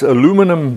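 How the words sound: It is said the American way, aluminum.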